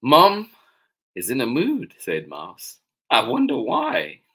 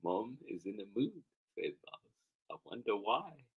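First: Put-on loud, lifted storybook child voice; puzzled Mouse. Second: Soft reading at normal pitch; understated wondering. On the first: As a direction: wonder it aloud, raised and lively. Mouse's remark, first reading. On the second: Acted. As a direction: wonder it quietly, without performing it. Same remark, second reading.

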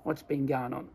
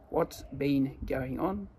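First: Casual Australian run-together phrase; relaxed Australian blend, no gaps. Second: Said in the usual way. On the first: Shown as a demonstration. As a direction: say it like an Aussie, words fused. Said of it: "más dicho como un australiano sería". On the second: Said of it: "pero se combinan".

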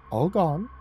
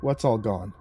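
First: High, teasing lilt with rising end; a playful little taunt, pitched up; tittering. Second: Said in the usual way. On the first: A narrator's reading. Cat teasing the man after licking his hand, tittering. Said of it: "he tittered". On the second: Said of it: "I asked".

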